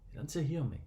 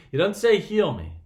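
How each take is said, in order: First: Soft, lowered-volume emphasis; hushed repetition. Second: Raised, higher-pitched insistence; loud emphatic point. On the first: Preacher repeating the point to listeners, softly. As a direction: drop the volume to let it sink in. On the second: Preacher stressing what the blind man didn't ask, loud and emphatic. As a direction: drive the point home loudly. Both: Real, not acted.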